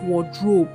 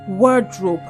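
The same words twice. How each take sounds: First: The stress is on the second syllable. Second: The stress is on the first syllable. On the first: The speaker calls it wrong. "and not wardrobe" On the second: The speaker calls it right. "the stress is often placed on the first syllable"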